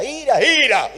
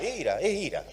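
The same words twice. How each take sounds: First: Higher and louder, hammering ira; mock emphasis. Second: Said in the usual way. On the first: Real, not acted. Preacher mocking spiritualized readings, sarcastic emphasis. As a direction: ridicule the search for hidden meaning.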